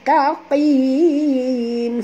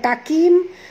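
First: The middle consonant is a deep, back q. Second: The middle consonant is a light, front k. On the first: The speaker calls it right. "tapi taqim, sebab huruf qaf dalam ya" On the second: The speaker calls it wrong. "bukan takim"

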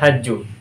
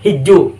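First: The first vowel is an 'a' sound. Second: The first vowel is an 'i' sound. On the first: "bukan hajju" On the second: "huruf haknya dibaca kasroh"

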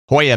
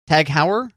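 First: The name is pronounced the German way, like 'hoya'. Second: The name is pronounced in an anglicized way.

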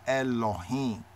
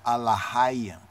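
First: An 'o' vowel follows the L sound. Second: The same basic vowel follows each consonant. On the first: The speaker calls it right. "We point it more correctly as Elohim" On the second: The speaker calls it wrong. "pronouncing it from baby Hebrew, where you use the basic Aleph, the basic vowel"

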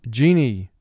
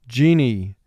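The two takes are said the same way.

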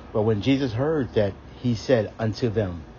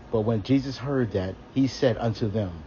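Both takes have the same delivery.

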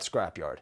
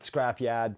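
First: The word has a standard pronunciation with a clear r. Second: The word has a Boston accent with a dropped r.

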